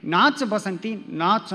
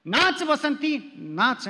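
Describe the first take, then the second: First: Slow, lightly voiced film villain line; Gabbar Singh. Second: Very slow, drawn-out mock villain command; Gabbar Singh. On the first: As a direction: drag out ನಾಚ್ Basanti ನಾಚ್ like a hint of Gabbar. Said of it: "Gabbar Singh ಏನು ಮಾಡ್ತಾನ". (ನಿಧಾನವಾಗಿ ಗಬ್ಬರ್ ಸಿಂಗ್ ಶೈಲಿಯ ಹಗುರ ಅನುಕರಣೆ) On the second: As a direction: play the film villain to the wife, lightly. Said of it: "ನಾನು ಗಬ್ಬರ್ ಸಿಂಗ್ ಆಗಿ ಹೇಳಿದೆ". (ಹೆಂಡತಿಗೆ ಗಬ್ಬರ್ ಸಿಂಗ್ ಆಗಿ ತುಂಬಾ ನಿಧಾನವಾಗಿ ತಮಾಷೆಯ ಆದೇಶ)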